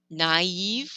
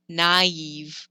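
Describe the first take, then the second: First: The two vowels are pronounced separately. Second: The two vowels are pronounced separately.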